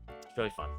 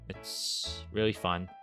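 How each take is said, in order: First: It is said lively, with lots of energy. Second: It is said flatly, with little energy. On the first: The speaker calls it right. "That's the energy you need" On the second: The speaker calls it wrong. "that sounded really enthusiastic"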